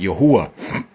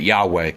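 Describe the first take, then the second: First: The name is said as Yahuwah. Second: The name is said as Yahweh. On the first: This is the Paleo Hebrew pronunciation. "in Paleo Hebrew, you pronounce it Yahuwah" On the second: This is the Aramaic pronunciation. "Aramaic, they pronounce it Yahweh"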